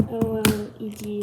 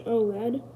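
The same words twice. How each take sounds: First: O L E D said letter by letter; each letter of O L E D named separately; spelled out. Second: O LED said as "oh-led"; said as a word. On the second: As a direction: run O and LED together as one word, oh-led. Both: Shown as a demonstration. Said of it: "however you, blah, blah, blah".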